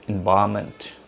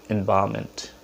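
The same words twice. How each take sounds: Both takes have the same delivery.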